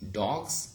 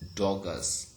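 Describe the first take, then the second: First: The word has one syllable, ending in z. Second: The word has two syllables, ending in a vowel. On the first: This is how the plural is said today. "we now pronounce uh, these words as dogs" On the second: This is how the plural was said long ago. "In old pronunciation"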